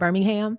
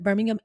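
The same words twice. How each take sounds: First: The final 'ham' is pronounced fully and clearly. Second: The final 'ham' is reduced and run together. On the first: This is the city in Alabama. "you would pronounce the ham in that Birmingham" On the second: This is the city in England. "it's kind of all together"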